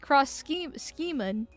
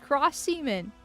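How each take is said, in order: First: The second word begins with a hard K sound. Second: The second word begins with an S sound. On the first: "Unless it's supposed to be" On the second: "it makes an S sound"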